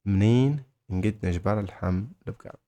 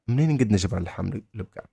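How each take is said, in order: First: منين set apart by a pause, then the rest in pieces; broken-down phrase. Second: منين نقد نجبر اللحم البقر said fast in one go; run-together phrase. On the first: Teacher modelling where to find beef, broken into parts. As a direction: separate منين and البقر from the words between. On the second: Teacher modelling where to find beef, fast and connected. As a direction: rattle off the whole question without breaks. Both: Shown as a demonstration.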